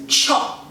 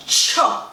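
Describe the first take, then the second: First: "cho" as a short breathy teeth-hiss sound. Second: "cho" voiced, said plainly as a word. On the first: Teaching viewers to say "cho", as a teeth hiss. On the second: Showing viewers a second way of saying "cho". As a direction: say "cho" as a short spoken word. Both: Shown as a demonstration. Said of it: "you have to say it just so".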